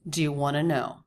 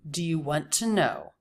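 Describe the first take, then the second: First: Want to is reduced to wanna. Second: Want to is said with one linked T. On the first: "most Americans in conversation would say wanna" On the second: "He says want to, which is also okay"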